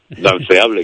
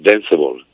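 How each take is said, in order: First: The word is pronounced with Spanish sounds. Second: The word is pronounced with English sounds. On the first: "incluso pronunciado en castellano queda bonito también" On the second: "ponlo en inglés"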